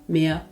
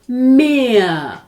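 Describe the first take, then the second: First: The vowel is cut short. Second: The vowel is held long. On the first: The speaker calls it wrong. "А не" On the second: The speaker calls it right. "Довгим буде голосний звук також у разі подвоєння літер"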